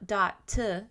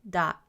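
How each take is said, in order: First: The final T is forced and clearly released. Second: The final T is soft and barely released. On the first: The speaker calls it wrong. "don't over-enunciate. Not dot t" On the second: The speaker calls it right. "the T at the end isn't really forced"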